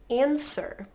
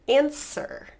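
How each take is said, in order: Both takes have the same delivery.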